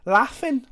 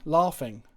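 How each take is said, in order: First: "Laughing" with a short northern a, raised pitch; northern English "Laughing", said "laffin"; Northern English accent. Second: Said in the usual way. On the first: Shown as a demonstration. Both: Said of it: "talking like a northerner".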